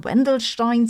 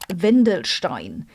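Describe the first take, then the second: First: The name is said in an English-style pronunciation. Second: The name is said in a German pronunciation.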